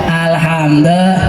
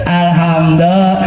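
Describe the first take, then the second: The two takes are said the same way.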